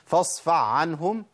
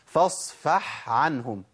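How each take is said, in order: First: The first word ends in a throaty ayn sound. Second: The first word ends in a breathy h sound. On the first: The speaker calls it wrong. "أنا كده أبدلت الحاء بعين على طول، أضغمت" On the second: The speaker calls it right. "اسمع كده، فاصفح عنهم، ده الصح"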